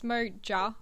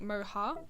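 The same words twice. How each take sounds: First: The middle consonant is an English J sound. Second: The middle consonant is a breathy H sound. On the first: The speaker calls it right. "it's Moja, as it's spelled" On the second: The speaker calls it wrong. "with like a Spanish J sound"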